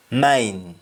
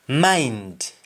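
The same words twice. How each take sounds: First: MINE, for mind, stopping at N; Jamaican pronunciation. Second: MIND with the final D sounded; English-style MIND, full "nd"; English pronunciation. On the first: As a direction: drop the D, just MINE. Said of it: "You only stop at N". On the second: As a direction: finish MIND on a clear D. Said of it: "ends with N D in English". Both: Shown as a demonstration.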